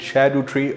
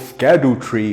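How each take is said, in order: First: The name begins with an 'sh' sound. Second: The name begins with an 'sk' sound. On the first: "I did pronounce it Shadow Tree, apparently that is the right way" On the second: "Skadu Tree does sound much cooler"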